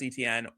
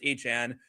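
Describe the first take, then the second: First: The name is said in a plain English way. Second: The name is said in a French-style way. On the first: The speaker calls it wrong. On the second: The speaker calls it right.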